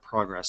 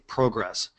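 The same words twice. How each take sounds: First: It is said with an American pronunciation. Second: It is said with a Canadian pronunciation. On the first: "instead of progress" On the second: "in Canada, they say progress"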